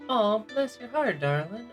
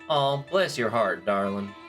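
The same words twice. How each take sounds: First: The tone is warm and sincere. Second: The tone is cutting and sarcastic. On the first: It means thank you. "It can mean thank you" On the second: It is a rude insult telling someone off. "or it can mean go fuck yourself"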